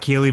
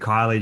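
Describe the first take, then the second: First: The first vowel sounds like 'ee'. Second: The first vowel sounds like 'eye'. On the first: The speaker calls it wrong. "It's it sounds like Keely" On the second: The speaker calls it right. "but it's actually Kylie"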